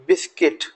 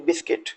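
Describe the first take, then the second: First: बिस्किट with a short i in the second syllable; correct pronunciation. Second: बिस्किट repeated softly as bis-kit, not biskut; correct pronunciation. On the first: Teacher modelling बिस्किट for students. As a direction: say बिस्किट as bis-kit. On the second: Teacher repeating बिस्किट for students. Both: Shown as a demonstration. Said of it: "बिस्कुट नहीं".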